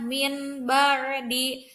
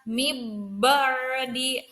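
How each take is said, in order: First: The n sound is said clearly before b. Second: The n sound is merged into the b. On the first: "tidak dibaca jelas seperti izhar" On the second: "tidak juga dimasukkan ke dalam huruf iqlabnya"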